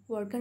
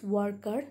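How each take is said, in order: First: Said in the usual way. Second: "worker" split into war and car; syllable by syllable. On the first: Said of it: "Worker means the person". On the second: Shown as a demonstration. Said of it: "two different syllables".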